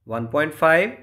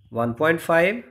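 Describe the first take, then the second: No difference in how they are said.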